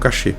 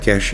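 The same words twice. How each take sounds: First: The word ends in a stressed vowel. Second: The word has no stressed final vowel. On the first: The speaker calls it wrong. "e não cache" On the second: The speaker calls it right. "a pronúncia correta é cache"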